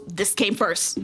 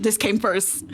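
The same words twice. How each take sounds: First: Came stressed, the rest light. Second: This stressed, falling at the end. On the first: Correcting the game order, stress on came. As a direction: lean on came in this came first. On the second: Insisting which game was first, stress on This. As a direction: push the word This in This came first. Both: Real, not acted.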